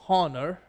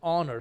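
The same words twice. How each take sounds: First: The word begins with an audible h sound. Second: The word begins with a vowel sound. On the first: The speaker calls it wrong. "we don't pronounce it honor" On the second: The speaker calls it right. "we pronounce it honor"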